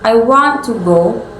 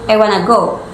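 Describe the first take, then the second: First: Want to is said in full. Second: Want to is reduced to wanna. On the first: "instead of saying" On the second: "the two becomes reduced or weakened"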